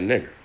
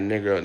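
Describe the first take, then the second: First: Said in the usual way. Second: "nigga" ending on an open vowel, no hard R; slave dialect. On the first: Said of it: "they say that nigger". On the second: Shown as a demonstration. Explaining what slaves meant, dialect "nigga" without R. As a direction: drop the final R of "nigga". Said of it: "is slave dialect for nigger".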